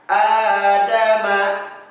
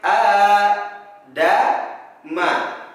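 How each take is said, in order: First: The syllables flow together without any pauses. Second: The syllables are separated by short pauses. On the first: "baca secara mengalir" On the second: "boleh dibaca secara terputus-putus"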